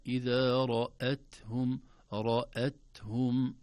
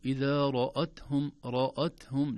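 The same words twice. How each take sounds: First: إذا رأتهم very slow, heavy ra then light hamza, raethum; slow model recitation; correct reading. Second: إذا رأتهم with the hamza made heavy like the ra, raathum; demonstrating the error; wrong reading. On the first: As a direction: draw out رأتهم with a thin hamza. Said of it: "لا". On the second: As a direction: show the mistaken heavy رأتهم. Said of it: "لو لم ننتبه نقول". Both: Shown as a demonstration.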